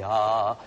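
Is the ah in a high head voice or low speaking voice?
speaking voice. A low vowel in the ordinary speaking voice. "une voix parlée c'est ah"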